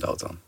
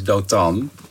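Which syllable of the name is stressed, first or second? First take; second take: first; second. First: The stress is on the first syllable. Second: The stress is on the second syllable. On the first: This is the usual Dutch pronunciation. "in het Nederlands zeg je gewoon Dotan" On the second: This is the original Hebrew pronunciation. "De klemtoon ligt op de tan"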